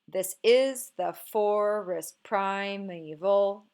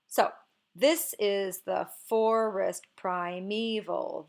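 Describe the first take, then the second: First: Unstressed and stressed syllables alternate, starting unstressed. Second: One stressed syllable, then two unstressed, repeating. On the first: The speaker calls it wrong. "let's try to make it iambic" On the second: The speaker calls it right. "the line begins with a stressed syllable, is followed by two unstressed syllables"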